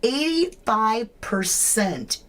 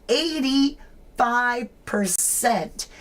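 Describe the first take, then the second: First: Said in the usual way. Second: "eighty-five percent" stretched slow, each syllable leaned on; slow emphatic repeat. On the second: Shown as a demonstration. Streamer repeats poll number to viewers, slow and stressed. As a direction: drag out "eighty-five percent" to let it land.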